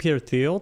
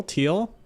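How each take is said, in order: First: "Thiel" starting with a TH sound; soft TH. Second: "Thiel" said like "teal"; "Thiel" with no th sound, rising; hard T. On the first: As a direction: say "Thiel" with th as in "thin". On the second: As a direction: say "Thiel" with a plain T, as a question. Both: Real, not acted. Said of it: "I pronounce it differently".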